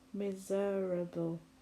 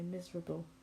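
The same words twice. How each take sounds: First: The vowel before the R is clearly sounded. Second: The vowel before the R is barely sounded. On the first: The speaker calls it wrong. "We don't say it like that" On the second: The speaker calls it right. "we just say miserable"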